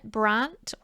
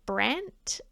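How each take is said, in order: First: The name is said with a non-American vowel. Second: The name is said with an American vowel.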